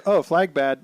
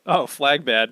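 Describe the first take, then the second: First: Laughing dumb caveman voice; mock a simple man's logic; hammed-up dimwit grunt through a laugh; simple-minded Luffy. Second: Simple-minded Luffy. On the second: Retold or imitated. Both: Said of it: "Luffy, simple man".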